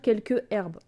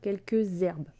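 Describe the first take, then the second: First: The two words are said without a z link. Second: A z sound links the two words together. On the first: The speaker calls it wrong. "On va pas dire" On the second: The speaker calls it right. "on va faire la liaison"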